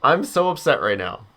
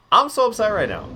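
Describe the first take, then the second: First: Said in the usual way. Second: Much higher, squeaky mock complaint; mock upset. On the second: Streamer repeating his complaint to chat, in a hammed-up high voice. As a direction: pitch it way up like a whiny joke. Repeats line after dying.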